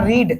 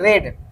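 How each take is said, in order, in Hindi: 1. स्वर लंबा है, 'seed' के साथ तुकांत। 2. स्वर छोटा है, 'bed' के साथ तुकांत। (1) "पढ़ना का रीड" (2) "लेकिन इसको पढ़ते हैं रेड"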